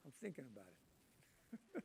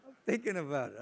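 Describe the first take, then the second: First: Drawn-out, much softer, lower musing; slow musing. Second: Said in the usual way. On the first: Retold or imitated. Answering the missionaries, slow and much softer. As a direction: stall them with a slow mock ponder. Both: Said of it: "I said".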